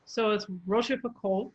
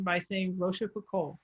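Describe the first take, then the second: First: "Rochefoucauld" with the final L barely sounded; soft L. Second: "Rochefoucauld" with a clear English L at the end. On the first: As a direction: let the L of "Rochefoucauld" fade away. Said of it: "the L is less pronounced". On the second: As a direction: say "Rochefoucauld" and sound the L fully. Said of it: "you can possibly get away". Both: Shown as a demonstration.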